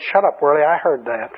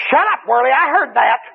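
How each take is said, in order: First: Said in the usual way. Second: Higher, snarling demon retort. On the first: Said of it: "he said". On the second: Retold or imitated. Demon across the church snapping at the praying preacher. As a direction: snap back like a demon caught out. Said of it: "that demon ... said".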